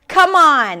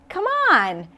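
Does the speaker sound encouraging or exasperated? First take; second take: exasperated; encouraging. First: It sounds exasperated, like calling someone out. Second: It sounds warm and encouraging, inviting someone along. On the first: The listener is being unreasonable. "It's like saying to someone, oh, please" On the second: The listener is invited to join in. "when you're trying to encourage someone"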